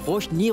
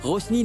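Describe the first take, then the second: First: The middle consonant is an sh sound. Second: The middle consonant is a plain s sound. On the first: The speaker calls it right. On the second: The speaker calls it wrong.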